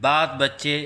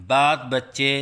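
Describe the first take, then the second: No difference in how they are said.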